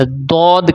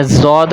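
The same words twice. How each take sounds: First: دود with a thick, stopped d at the start; دود with rounded vowel after emphatic d; Arabic heavy d. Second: زود starting with a buzzing z; زود with z as in "zoo"; wrong Urdu z. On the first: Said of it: "عربی میں اس کو دود کہتے ہیں". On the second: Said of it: "زود Urdu میں کہتے ہیں". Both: Shown as a demonstration.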